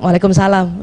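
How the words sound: It is said curtly, like to a stranger.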